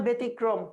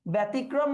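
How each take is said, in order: First: ব্যতিক্রম said "be-tikrom"; closed first vowel. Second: ব্যতিক্রম said "bæ-tikrom"; open first vowel. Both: Shown as a demonstration. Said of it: "সংবৃত উচ্চারণ না বিবৃত".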